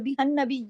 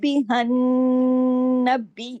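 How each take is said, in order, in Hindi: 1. नासिक n की आवाज़ छोटी कटती है। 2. नासिक n की आवाज़ लंबी खिंचती है।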